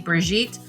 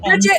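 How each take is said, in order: First: The name is said with French pronunciation. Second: The name is said with English pronunciation. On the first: The speaker calls it wrong. "I have a friend that's from France, and so I'm used to that way" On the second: The speaker calls it right. "I say Bridget"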